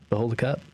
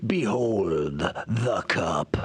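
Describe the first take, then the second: First: It is said in a flat, plain way. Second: It is said in a grand, epic way.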